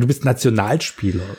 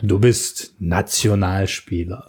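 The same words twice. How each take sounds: First: Nationalspieler is stressed heavily and sounds odd. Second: Nationalspieler is stressed normally and sounds plain.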